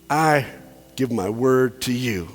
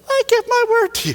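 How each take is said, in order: First: It is said in a normal speaking voice. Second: It is said in a high falsetto voice.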